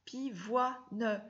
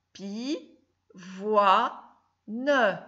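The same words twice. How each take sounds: First: Said in the usual way. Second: "Pi, voix, ne" said as three separate syllables with pauses, last two louder; split into syllables. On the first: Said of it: "avec le E". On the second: Shown as a demonstration. Teacher showing a pupil the three syllables, each one separate. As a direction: chop "Pi, voix, ne" into three beats with clear gaps. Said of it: "il y a trois syllabes".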